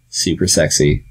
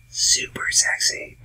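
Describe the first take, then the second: First: Said in the usual way. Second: Slow, soft whisper; sultry whisper. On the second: Real, not acted. Host on Irish accents on ladies, sultry whisper. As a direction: whisper it slowly for emphasis.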